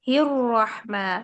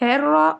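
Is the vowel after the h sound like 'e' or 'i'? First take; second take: i; e. First: The vowel after h is a thin 'i'. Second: The vowel after h is an open 'e'. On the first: The speaker calls it right. "कसरा को ... बारीक करके पढ़ते हैं उतना ज्यादा प्यारा लगता है" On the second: The speaker calls it wrong. "हे हेर्रा और निर्रा नहीं"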